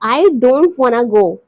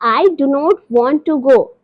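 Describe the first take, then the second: First: 'Do not' and 'want to' are contracted and blended. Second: Every word is said fully and separately.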